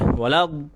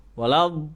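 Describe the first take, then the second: Both takes have the same delivery.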